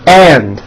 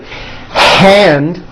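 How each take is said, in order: First: The word starts with no h sound. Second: The word starts with a breathy h sound. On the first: The speaker calls it wrong. "they would say and, like my right and" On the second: The speaker calls it right. "instead of saying the word hand"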